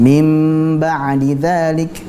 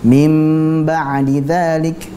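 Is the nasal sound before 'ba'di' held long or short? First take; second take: long; long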